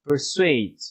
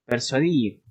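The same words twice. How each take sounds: First: English persuade, not Spanish. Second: Persuadir with Spanish tapped r; Spanish version persuadir. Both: Shown as a demonstration.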